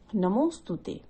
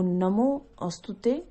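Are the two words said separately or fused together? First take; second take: fused; separately. First: It is fused into one word, namostute. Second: It is split into two separate words, namo astute. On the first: It is the actual pronunciation. "जो वास्तविक इसका उच्चारण है वो नमोस्तुते है" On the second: It is an easier reading for those who cannot read Sanskrit. "Break करके पढ़ सकते हैं"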